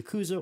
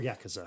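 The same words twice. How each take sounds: First: "Yakuza" with the middle KOO stressed; first pronunciation of Yakuza. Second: "Yakuza" with the first YAK stressed; alternative pronunciation of Yakuza. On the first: Offers the first option for the name, "Yakuza" as ya-KOO-za. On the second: Offers the second option for the name, "Yakuza" as YAK-uh-za. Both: Shown as a demonstration. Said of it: "however you would like to pronounce it".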